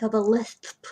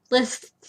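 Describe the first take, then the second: First: "lisp" with a lisped s, like "lisst". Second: "Lisp" said cleanly as "liss"; retry "Lisp" with a shorter s; careful retry. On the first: Real, not acted. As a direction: retainer lisp on "lisp". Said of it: "Hence the sudden acquirement of a lisp". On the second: Shown as a demonstration. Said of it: "acquirement of a lisp".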